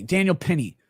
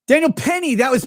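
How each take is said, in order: First: Said in the usual way. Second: Sudden recall. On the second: Real, not acted. Suddenly remembers the name.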